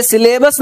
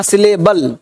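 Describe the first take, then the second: First: सिलेबस with a final "s" sound; the mistaken सिलेबस, ending in s; mispronounced सिलेबल. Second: सिलेबल with a final "l", falling lower; the corrected सिलेबल, closing lower on l. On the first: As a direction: end सिलेबस on "bus" instead of "bal". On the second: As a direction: end सिलेबल clearly on "bal". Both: Shown as a demonstration. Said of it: "इसे सिलेबस नहीं कहना".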